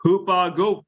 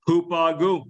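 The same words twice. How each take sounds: First: Hupago with a rising end, said as hoo-PAH-go; Greek word pronounced. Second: Hupago with a falling end, settled; Greek word pronounced. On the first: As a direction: sound out hupago as a question. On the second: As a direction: say Hupago firmly as the answer. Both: Shown as a demonstration. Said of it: "see this verb".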